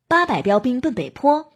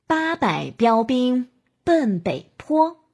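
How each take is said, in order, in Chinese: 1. 以非常快的速度说。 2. 以慢速度说。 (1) "再加快。" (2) "我们可以由慢到快。"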